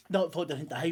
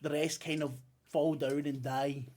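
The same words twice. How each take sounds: First: Not said a bit louder, rising; stress on Not. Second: Said in the usual way. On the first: Shown as a demonstration. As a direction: lean on Not to correct yourself.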